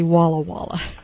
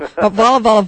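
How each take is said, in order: First: Each word begins with a W sound. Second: Each word begins with a V sound. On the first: The speaker calls it right. "But the town was really Walla Walla" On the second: The speaker calls it wrong. "in Hawaii the W's are pronounced as V's"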